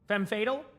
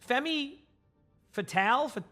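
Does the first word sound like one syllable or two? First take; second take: one; two. First: The first word is said with one syllable. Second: The first word is said with two syllables. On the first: The speaker calls it right. "So Fem, and then Fatal" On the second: The speaker calls it wrong. "I always say that one wrong"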